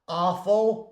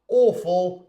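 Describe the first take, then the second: First: It is said with an American accent. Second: It is said with a British accent. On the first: "in American English" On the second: "in British English"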